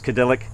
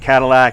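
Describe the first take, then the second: First: The word is pronounced in a distorted way. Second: The word is pronounced in the standard way. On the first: The speaker calls it wrong. "intentionally mispronouncing words" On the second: The speaker calls it right. "Instead of Cadillac"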